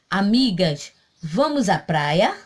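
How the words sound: It is said as a question.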